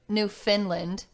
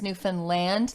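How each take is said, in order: First: The final syllable 'land' is not stressed. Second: The final syllable 'land' is stressed. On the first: The speaker calls it wrong. "instead of Newfoundland" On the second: The speaker calls it right. "it's Newfoundland. Like you pronounce the land"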